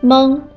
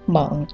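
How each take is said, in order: First: The syllable is said with a high level tone. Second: The syllable is said with a dipping tone. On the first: "一声" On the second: "三声"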